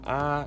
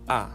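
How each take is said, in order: First: The pitch stays level throughout. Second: The pitch falls sharply from high to low. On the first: "it's flat" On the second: "ambayo inashuka"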